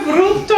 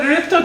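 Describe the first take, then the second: First: "rób" with an oo vowel, like "roop"; correct pronunciation. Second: "rób" slipped into "rip"; mispronounced Polish. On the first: Storyteller contrasts the intended words, "rób" with an oo vowel. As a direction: say "rób to" as "roop-toh", high. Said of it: "instead of "rób to," I said". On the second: Storyteller admits what he told every student, "rób" mispronounced as "rip". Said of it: "I said "rób to" to each". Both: Shown as a demonstration.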